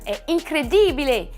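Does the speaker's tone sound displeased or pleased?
pleased. The tone sounds pleased and enthusiastic. Something is wonderful. "c'est une très bonne chose"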